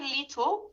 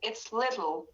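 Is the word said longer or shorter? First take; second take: longer; shorter. First: The word is drawn out and longer. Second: The word is clipped and shorter. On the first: The speaker calls it wrong. "don't say little" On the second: The speaker calls it right. "make it shorter"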